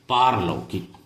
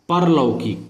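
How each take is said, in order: First: The first vowel is long. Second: The first vowel is short. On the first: The speaker calls it right. "इसका शुद्ध रूप होता है पारलौकिक" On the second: The speaker calls it wrong. "परलौकिक अशुद्ध रूप है"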